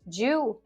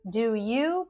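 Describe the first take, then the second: First: The two words merge into one syllable. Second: Both words are pronounced fully and separately. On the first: "Do you becomes ju" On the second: "We can elide do and you"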